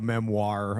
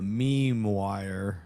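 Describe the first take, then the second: First: The word is said like 'mem-war'. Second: The word is said like 'meme wire'. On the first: The speaker calls it right. "So it's called a memoir" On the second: The speaker calls it wrong. "I'm trying to troll them back by mispronouncing their correction"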